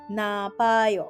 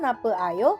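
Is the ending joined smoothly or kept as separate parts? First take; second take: joined; separate. First: The e vowel drops and the parts merge. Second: An e vowel is kept before a separate ayo. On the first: The speaker calls it right. "tetapi menjadi napayo" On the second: The speaker calls it wrong. "Bukan nape ayo ya"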